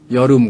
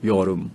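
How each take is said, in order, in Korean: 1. 첫 모음이 짧아요. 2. 첫 모음이 약간 길어요.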